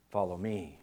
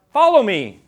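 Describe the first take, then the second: First: Much softer and lower, an intimate invitation; soft call. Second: A loud, ringing call of Jesus' command. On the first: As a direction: say it gently, like a distant call. Imagined voice of Jesus calling. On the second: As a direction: proclaim it loudly to the congregation. Congregation completes Jesus' words. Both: Acted.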